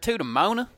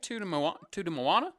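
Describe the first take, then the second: First: The name is said as two syllables, Mona. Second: The name is said as three syllables, Mo-a-na. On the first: The speaker calls it wrong. "It's a huge pet peeve when you mispronounce movies" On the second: The speaker calls it right. "I always subtly correct you"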